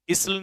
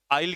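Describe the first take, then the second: First: इसल with the s sounded and a short i; wrong spelling pronunciation. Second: आइल with the s left silent; correct silent-s pronunciation. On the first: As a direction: say इसल as spelt, sounding the silent s. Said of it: "इसल नहीं पढ़ेंगे". (इसल, एस की आवाज़ के साथ गलत उच्चारण) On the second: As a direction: say आइल like English "I'll", no s sound. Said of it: "एस silent रहता है". (आइल, एस साइलेंट रखकर सही उच्चारण) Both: Shown as a demonstration.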